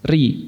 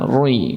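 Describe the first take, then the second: First: The r is light, with a clear i vowel. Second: The r is heavy, with a rounded vowel. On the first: The speaker calls it right. "maka ro tersebut dibaca tipis" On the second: The speaker calls it wrong. "jangan roi gitu kayak orang-orang Malaysia"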